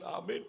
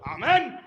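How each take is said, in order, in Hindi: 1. इसे धीरे और विनम्रता से बोला जाता है। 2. इसे ऊँची आवाज़ और हुक्म के अंदाज़ में बोला जाता है। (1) "बड़े नम्रता से बोलना चाहिए" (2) "आमेन को इतनी जोर से बोलते हैं जैसे सामने वाला और नौकर है"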